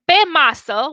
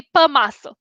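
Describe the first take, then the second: First: "pe masă" with a clear e in pe; proper pronunciation. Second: "pe masă" with pe reduced to puh; Bucharest pronunciation. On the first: Example of "on the table", "pe masă" pronounced properly with e. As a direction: give "pe" in "pe masă" a full e, as in pet. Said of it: "instead of saying pe masă". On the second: Showing the Bucharest accent on "on the table", "pe masă" said puh masă. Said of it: "we say pe masă". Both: Shown as a demonstration.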